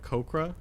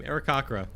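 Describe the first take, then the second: First: Aarakocra as air-uh-KOH-kruh; KOH pronunciation. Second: Aarakocra as air-uh-KAH-kruh; KAH pronunciation. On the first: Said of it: "a lot of people say". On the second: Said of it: "we say that the same". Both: Shown as a demonstration.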